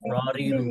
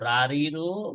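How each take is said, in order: First: The first vowel is a heavy, rounded o. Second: The first vowel is a light, open a. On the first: The speaker calls it right. "ররিরু বলতে হবে" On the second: The speaker calls it wrong. "রারিরু বলা যাবে না"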